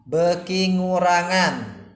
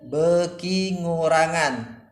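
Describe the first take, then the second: No difference in how they are said.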